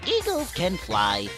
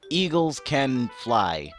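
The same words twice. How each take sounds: First: It is said in a Monokuma impression voice. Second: It is said in the speaker's normal voice.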